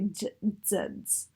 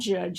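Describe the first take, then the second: First: It begins and ends with a dz sound. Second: It begins and ends with a j sound. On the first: The speaker calls it wrong. "they front them to an alveolar production of a ts and a z" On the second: The speaker calls it right. "Instead of saying the ch in the j"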